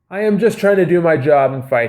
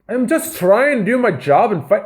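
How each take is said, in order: First: It is said in the speaker's normal accent. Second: It is said in a put-on Irish accent. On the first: The speaker calls it right. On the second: The speaker calls it wrong.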